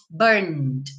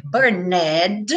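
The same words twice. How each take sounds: First: "burned" in one syllable, "burnd", no E sounded; "burned" ending in a plain "nd", without a vowel; silent E. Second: "burned" in two syllables, "bur-NED", with the E sounded; "burned" said with an audible "ned" ending; mispronounced burned. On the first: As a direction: run the N straight into the D in "burned". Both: Shown as a demonstration. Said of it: "o E não é pronunciado".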